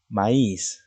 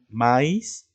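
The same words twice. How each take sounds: First: Maíz said slowly as ma-ÍS, falling at the end; maíz with light a and long stressed i; correct stress. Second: Maíz said as MÁ-is, rising at the end; maíz with stressed a and light i; wrong stress. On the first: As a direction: put the force of maíz on the I. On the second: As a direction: put the force of maíz on the A. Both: Shown as a demonstration. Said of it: "No es lo mismo decir".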